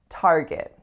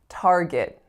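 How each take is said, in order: First: The second syllable has a weak schwa vowel. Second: The same.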